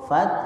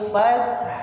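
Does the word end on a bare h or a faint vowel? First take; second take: bare h; faint vowel. First: The word ends on a bare, unvoiced h sound. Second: The word ends with a soft, faint u vowel. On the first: "bunyi yang terakhir itu terdengar hak sukun" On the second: "pakai wal fathu tapi khu-nya tidak keras"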